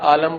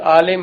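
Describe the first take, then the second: First: The second vowel is a short a. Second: The second vowel is a short i. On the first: The speaker calls it wrong. "अगर उस लहजे में इसको बोला जाए तो लोग आलम बोल देते हैं" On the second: The speaker calls it right. "जो लफ्ज़ आलिम है"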